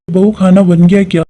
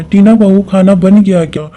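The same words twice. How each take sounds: First: Louder, calling across the kitchen; a mother-in-law calling her daughter-in-law. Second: Louder call, pressing for an answer; a mother-in-law repeating an unanswered question; calling out again. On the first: Mother-in-law calls to bahu. (बहू को ज़ोर से पुकारती सास) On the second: (जवाब न मिलने पर दोबारा पुकारती सास) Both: Acted.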